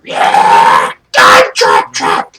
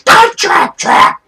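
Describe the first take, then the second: First: Low, loud, slow chanted cheer; deep-voiced kobold cheering loudly; crowd cheer. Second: Very high, loud, slow chanted cheer; screechy high kobold cheering loudly; crowd cheer. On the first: Kobold crowd approves of the trap, low loud cheer. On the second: Acted. Kobold crowd approves of the trap, high screeching cheer. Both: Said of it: "And they cheer".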